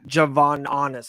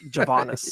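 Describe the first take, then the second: First: The name is said with four syllables. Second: The name is said with three syllables. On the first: The speaker calls it wrong. "I kept on saying Javon Honest or something like that" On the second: The speaker calls it right. "It's Javonis"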